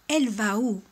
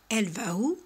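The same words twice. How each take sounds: First: Said in the usual way. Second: "Elle va où?" with the voice climbing on "où"; "Elle va où?" rising on "où", casual spoken question; rising question tune. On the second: Shown as a demonstration. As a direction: lift "où" at the end like a question. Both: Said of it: "En faisant l'intonation montante".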